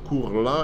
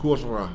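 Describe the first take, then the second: First: The l sound is pronounced separately. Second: The l merges into a long r. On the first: The speaker calls it wrong. "it's impossible" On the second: The speaker calls it right. "It becomes Kurra. And so the L will disappear"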